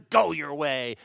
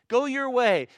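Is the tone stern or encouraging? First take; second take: stern; encouraging. First: It is said sternly, like a scolding. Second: It is said warmly, like an encouragement.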